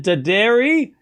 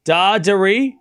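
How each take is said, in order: First: Daderi as duh-DAIR-ee, rising at the end; questioning Daderi, stress on DAIR; pronunciation option. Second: Dadari as DAH-duh-ree, long first syllable; pronunciation option. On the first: Streamer asks chat to choose, rising duh-DAIR-ee for Daderi. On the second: Streamer asks chat to choose, DAH-duh-ree for Dadari. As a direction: hit the DAH of Dadari, light ending. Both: Shown as a demonstration. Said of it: "Which one is it?".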